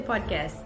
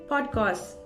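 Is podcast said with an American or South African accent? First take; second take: American; South African. First: It is said with an American accent. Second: It is said with a South African accent. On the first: "In America so they, they say podcast" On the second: "in South Africa we say podcast"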